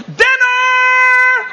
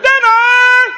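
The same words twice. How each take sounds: First: Calling out. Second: High, loud call across the yard. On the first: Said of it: "the magic word that she would announce". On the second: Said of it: "only until we heard". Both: Retold or imitated. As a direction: holler it to bring the kids home.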